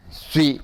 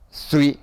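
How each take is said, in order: Both takes have the same delivery.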